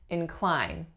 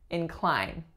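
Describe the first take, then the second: First: The stress is on the second syllable. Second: The stress is on the second syllable.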